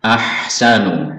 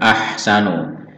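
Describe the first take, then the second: The two takes are said the same way.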